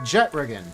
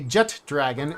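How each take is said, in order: First: It is said as one word without a d sound. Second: It is said as two words with a d sound. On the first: The speaker calls it right. "it is a jetragon" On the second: The speaker calls it wrong. "it is not a jet dragon"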